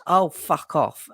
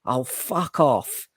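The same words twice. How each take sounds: First: Slow mock toddler oh fuck off; child imitating dad. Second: Slow weary oh fuck off; drawn-out oh fuck off. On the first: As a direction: copy dad like a little boy. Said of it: "he goes". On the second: Retold or imitated. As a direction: let it drag out, fed up. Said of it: "and I went".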